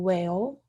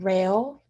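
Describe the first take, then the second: First: The word starts with a W sound. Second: The word starts with an R sound. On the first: "it's more of a W H" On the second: "instead of the R"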